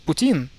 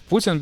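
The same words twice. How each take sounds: First: Put-on "Putin" as poo-TEEN; mis-stressed "Putin", weight on the end; second-syllable stress. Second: "Putin" as POO-tin; Russian stress in "Putin", first syllable. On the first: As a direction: hit the last syllable of "Putin". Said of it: "we're going for the second syllable". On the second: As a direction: put the weight on "PU" in "Putin". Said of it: "the proper pronunciation is Putin". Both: Shown as a demonstration.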